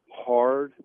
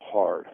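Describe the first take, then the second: First: Hard repeated louder, leaning on it; stress on hard. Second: Said in the usual way. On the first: Real, not acted. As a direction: punch the word hard harder the second time. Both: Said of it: "I mean".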